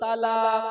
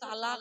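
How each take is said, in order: First: The final k is a deep, throaty q sound. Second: The final k is a plain, front k sound. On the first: The divorce counts. The speaker calls it right. "তোমাকে বলতে হতো কি তালাক তালাক তালাক" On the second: The divorce does not count. The speaker calls it wrong. "ছোট কফ দিয়ে তালাক দিয়েছিলা"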